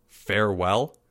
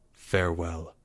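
First: FAREWELL with a rising tune; questioning. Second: Low, soft and final; quietly grand goodbye; solemn farewell. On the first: Boy left behind repeating "Farewell", rising in disbelief. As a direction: echo "Farewell" as a puzzled question. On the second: Boy walking out on his friend, low and solemn. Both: A narrator's reading.

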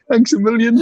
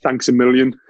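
First: High, loud giggly thanks a million; laughing mock thanks. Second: Said in the usual way. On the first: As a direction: repeat the line cracking up with laughter. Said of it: "And then". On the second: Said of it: "And I went".

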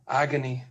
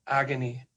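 The two takes are said the same way.

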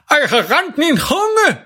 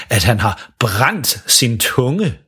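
First: "rent" for brændt, high and slow; garbled "rent min tunge", much higher, slow; burned-tongue speech. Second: Said in the usual way. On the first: Acted. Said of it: "fordi han har brændt sin tunge". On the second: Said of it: "prøver at sige".

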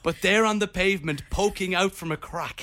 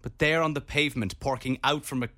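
First: "poking" said properly with no r; corrected poking. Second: "porking" said in place of poking, with an r; mispronounced porking. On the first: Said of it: "Oh, poking". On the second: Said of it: "Did you say porking?". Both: Shown as a demonstration.

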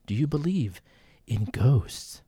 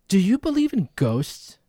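First: Much lower, quieter, eerie; spooky ghost-story voice. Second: Said in the usual way. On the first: Shown as a demonstration. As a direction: draw it out like a haunted host. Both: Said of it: "I've never asked you this".

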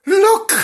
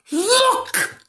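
First: Sudden high alarmed cry. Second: Very high squeaky alarm; alarmed again. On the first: Acted. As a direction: shout it in sudden fright. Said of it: "in alarm". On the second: Shown as a demonstration. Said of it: "Do you think that was alarmed?".

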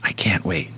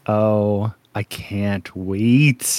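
First: Low, hushed whisper of anticipation; eager whisper. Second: Slow, low, drawn-out longing; savoring anticipation. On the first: Host gushing over upcoming characters, eager whisper. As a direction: whisper it, as if overcome. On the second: Host told of beautiful men to come, savoring anticipation. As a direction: stretch out CAN'T WAIT with relish. Gushing over upcoming beautiful characters. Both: Real, not acted.

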